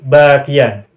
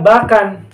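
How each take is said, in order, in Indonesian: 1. Kata ini ada bunyi 'y' sebelum 'an'. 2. Kata ini tidak ada bunyi 'y' sebelum 'an'. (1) "huruf ya-nya munculkan lagi, lalu difathahkan" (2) "Tidak bisa dibaca bakan"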